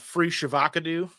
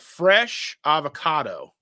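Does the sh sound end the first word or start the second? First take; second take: second word; first word. First: The sh sound starts the second word. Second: The sh sound ends the first word. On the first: The speaker calls it wrong. "the way they pronounced it was uh" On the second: The speaker calls it right. "it was uh, fresh avocado"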